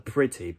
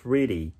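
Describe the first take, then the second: First: It has a crisp, fully released t. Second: It has a quick tapped flap t. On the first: "イギリスだとpretty" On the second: "アメリカだとpretty"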